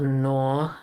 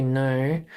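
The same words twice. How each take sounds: First: "nor" with an open or-vowel; mistaken Aussie "nor". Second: "no" ending in the name of the letter O; correct "no". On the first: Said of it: "It's not nor". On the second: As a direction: say "no" with a gliding o, no r. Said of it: "you say no". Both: Shown as a demonstration.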